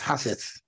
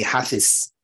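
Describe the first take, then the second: First: The word ends with a th sound. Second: The word ends with a z sound. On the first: "but it's hafith, see, in the Arabic language" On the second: "they give the Z"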